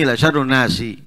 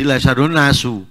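First: The last word ends with an i vowel. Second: The last word ends with a u vowel. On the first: "Dibaca dengan kasroh sinnya" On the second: "Kalau tadi la syarrun nasu"

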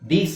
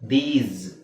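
First: The word ends with a hissing s sound. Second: The word ends with a buzzing z sound. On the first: The speaker calls it wrong. "ದೀಸ್ ಅಲ್ಲ" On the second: The speaker calls it right. "z ಬರುತ್ತೆ"

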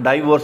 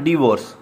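First: The first vowel sounds like 'eye'. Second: The first vowel sounds like a short 'ih'. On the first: The speaker calls it wrong. "डाइवोर्स नहीं कहना" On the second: The speaker calls it right. "जो सही इसका word है वो डिवोर्स है"

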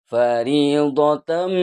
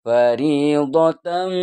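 Both takes have the same delivery.

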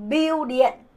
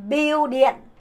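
The two takes are said the same way.

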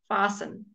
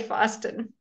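First: The t sound is left out completely. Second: The t sound is pronounced in the middle. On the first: The speaker calls it right. "you leave out the T" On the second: The speaker calls it wrong. "We don't say fasten"

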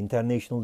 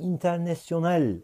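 First: The word is pronounced the English way. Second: The word is pronounced the French way. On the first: The speaker calls it wrong. "International diye okunmuyor" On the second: The speaker calls it right. "Bunu Fransızca böyle okunuyor"

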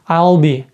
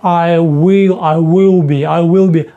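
First: Will is contracted and merged into I. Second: Will is said as a separate full word. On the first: "І у нас оце от «в» переходить взагалі в «I'll»" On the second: "якщо ми кажемо швидко"

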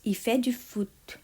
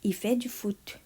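The two takes are said the same way.

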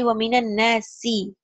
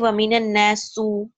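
First: The last word ends in an i vowel. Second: The last word ends in a u vowel. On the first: The speaker calls it right. "It has to be waminan nasi" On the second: The speaker calls it wrong. "you can never say waminan nasu"

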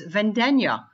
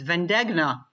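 First: The gn sounds like the gn in lasagna. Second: The name has an Americanized pronunciation. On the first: This is the authentic way to say it. The speaker calls it right. "actually it's Vendegna, like lasagna" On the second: This is how neighbors said it growing up. The speaker calls it wrong. "pronounced with all the other Americans in my neighborhood"

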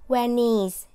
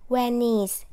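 The two takes are said the same way.

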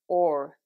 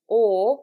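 First: The final R sound is clearly pronounced. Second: The final R sound is dropped. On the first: "you'll be saying or" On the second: "you won't be saying or"

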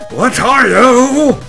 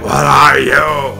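First: It is said in the speaker's normal voice. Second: It is said in a put-on Balrog voice.

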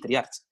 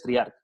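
First: The name ends with a ch sound. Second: The name ends with a k sound. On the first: The speaker calls it wrong. "porque acaba en CH y hay mucha gente que lo nombra así" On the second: The speaker calls it right. "Pero realmente es Triarc"

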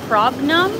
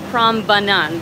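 First: The name is said missing one syllable. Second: The name is said with one extra syllable. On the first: The speaker calls it wrong. "I don't know if I'm pronouncing that correctly" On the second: The speaker calls it right. "That was an extra syllable"

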